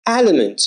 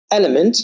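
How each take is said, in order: First: Element begun with a wide flat a, like "alamo"; ae vowel. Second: Element with a clear short e, like "elm". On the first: Teacher contrasting vowels, wide flat a second. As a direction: open the jaw on the first sound of "element". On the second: Teacher contrasting vowels, clear short e first. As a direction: say "Element" with an eh start. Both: Shown as a demonstration. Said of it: "Fend, fanned".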